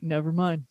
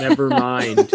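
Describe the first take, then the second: First: Softer, lower mumbled never mind; sheepish retreat. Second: Never mind higher with a rising lilt; mock echo. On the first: Retold or imitated. Mister Satan backing down from Vegeta, softer, lower sheepish mumble. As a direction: back down and let Never mind drop away. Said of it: "And he's like". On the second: Cohost echoing the backdown as a higher teasing rise. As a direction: tease it back with a lifted Never mind.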